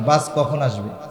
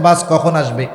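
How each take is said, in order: First: It is asked in a calm, ordinary tone. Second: It is asked in an annoyed, impatient tone.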